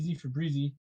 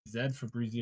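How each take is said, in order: First: The letter Z is said as 'zee'. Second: The letter Z is said as 'zed'. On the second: "if you're using Canadian pronunciation"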